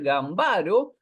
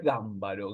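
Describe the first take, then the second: First: "Gambaro" stressed on the middle syllable, gam-BA-ro, as it looks in writing; wrong pronunciation. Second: "Gámbaro" stressed on the first syllable, GAM-ba-ro; correct pronunciation. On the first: Teacher showing the mistaken reading: "Gambaro" stressed on BA. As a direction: say "Gambaro" as a llana, leaning on BA. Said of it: "estamos ante el mismo caso". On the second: Teacher correcting the students: "Gámbaro" stressed on GAM. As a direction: say "Gámbaro" leaning hard on GAM. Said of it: "pero es". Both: Shown as a demonstration.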